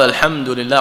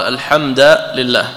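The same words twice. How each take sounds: First: Said in the usual way. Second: الحمد said as "al-hamda", ending in a clear -a; fatha on the dal. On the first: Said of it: "يعني لو قال". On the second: Shown as a demonstration. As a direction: say الحمد with an a-vowel after the dal. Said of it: "كفتح الدال من قوله تعالى". (الحمد بفتح الدال)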